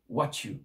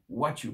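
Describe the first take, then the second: First: The two words are reduced and run together. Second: The same.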